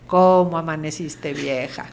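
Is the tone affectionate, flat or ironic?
flat. It is said in a flat, routine tone.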